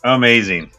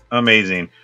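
No difference in how they are said.

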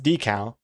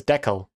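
First: Decal said DEE-cal, long E. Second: Decal said DECK-ul, short E. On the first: Streamer weighing which pronunciation is correct, decal with long E. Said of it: "I think it's pronounced". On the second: Streamer recalling an old pronunciation, decal as DECK-ul. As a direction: say decal to rhyme with heckle. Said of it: "I used to think it was". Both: Shown as a demonstration.

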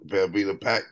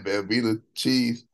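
First: Velveeta pack, each word drawn out; Velveeta pack said slowly. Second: Plain Velveeta cheese, slow; Velveeta cheese said plainly. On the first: Retold or imitated. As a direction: say Velveeta pack with a dropped pitch. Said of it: "You see how he said Velveeta pack?". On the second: Shown as a demonstration. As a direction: Velveeta cheese with no rap flow. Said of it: "but Velveeta pack".

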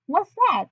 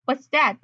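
First: High, lifted character question; higher-voiced retake. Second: Said in the usual way. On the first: Reporter asks about the statement, high-voiced. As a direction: ask it in a higher put-on voice.

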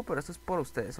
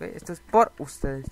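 First: Said in the usual way. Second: "por ustedes" slowed and firmly punched; stress on POR USTEDES. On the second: Real, not acted. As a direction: slowly hammer home "por ustedes". Repite la frase con énfasis. ("por ustedes" recalcado, despacio)

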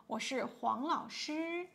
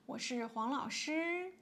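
Both takes have the same delivery.

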